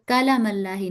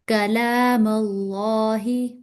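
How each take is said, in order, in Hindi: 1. l के बाद का स्वर छोटा है। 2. l के बाद का स्वर लंबा है। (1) "कलाम अल्लाही नहीं" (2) "कला लाम के साथ जो खड़ा जबर है"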